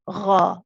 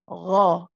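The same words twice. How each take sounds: First: The syllable is breathy, mixed with air. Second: The syllable is fully voiced without breath. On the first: The speaker calls it wrong. "That's mixed with air" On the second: The speaker calls it right. "You just want your voice"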